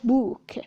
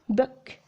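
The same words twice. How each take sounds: First: The vowel in the word is long. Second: The vowel in the word is short. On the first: The speaker calls it wrong. "not book" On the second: The speaker calls it right. "it's book, book, a short U"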